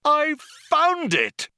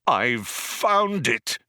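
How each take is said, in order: First: Very high, loud, drawn-out yell; triumphant cry. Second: Slow, drawn-out cry of discovery; excited cry. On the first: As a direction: shriek the discovery in triumph. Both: A narrator's reading. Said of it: "cried Zaphod".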